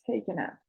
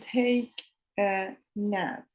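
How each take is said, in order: First: The words are run together as one. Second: The words are said separately with breaks. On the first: The speaker calls it right. "Dicen take a nap" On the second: The speaker calls it wrong. "No dicen take a nap"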